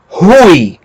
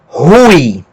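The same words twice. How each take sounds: The two takes are said the same way.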